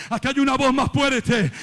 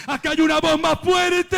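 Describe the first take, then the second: First: Said in the usual way. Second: High, ringing shouted refrain; preacher's raised cry; climactic shout. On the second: Real, not acted. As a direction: proclaim it at full force.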